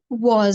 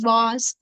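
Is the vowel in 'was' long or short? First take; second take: short; long. First: The vowel is clipped short. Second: The vowel is drawn out long. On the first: The speaker calls it right. "shortened and said was" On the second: The speaker calls it wrong. "you dragged it and said was"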